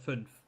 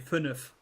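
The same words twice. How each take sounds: First: The word is pronounced in an ordinary, plain way. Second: The word is pronounced in an exaggerated, drawn-out way. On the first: It is the everyday form. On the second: It is the form used so it is not misheard.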